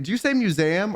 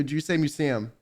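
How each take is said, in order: First: "museum" said as myoo-ZAM; own pronunciation. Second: "museum" said as myoo-SEE-um; alternative pronunciation. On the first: Streamer asking friend how she pronounces it, own pronunciation of "museum". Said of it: "How does she pronounce museum?". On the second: Streamer offering friend the other option, standard pronunciation of "museum". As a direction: say "museum" with an ee-um ending. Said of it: "how do you pronounce museum". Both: Shown as a demonstration.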